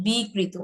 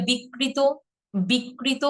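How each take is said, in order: First: বিকৃত correctly as "bi-krito"; একক ক. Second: বিকৃত wrongly as "bik-krito"; দ্বিগুণ ক. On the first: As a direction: open bi, then single k in বিকৃত. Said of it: "এটা কি হবে জানেন?". ("বিকৃত" বলো বি-কৃত) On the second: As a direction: demo the mistake, doubling k in বিকৃত. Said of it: "আমরা এটাকে বলে ফেলি না". ("বিকৃত" ভুল করে বিক্-কৃত) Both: Shown as a demonstration.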